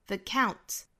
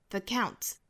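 The two takes are said the same way.

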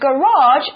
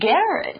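First: It is said with an American pronunciation. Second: It is said with a British pronunciation. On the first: "美式发音是" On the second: "英式发音是"

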